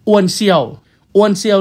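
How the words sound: The name is said in a Thai pronunciation. "อ อกเสียงตามแบบสำเนียงไทย"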